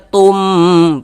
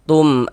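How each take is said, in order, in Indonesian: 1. Vokal pada tum dibaca panjang. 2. Vokal pada tum dibaca pendek. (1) "panjangkan begitu salah" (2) "pendek begitu"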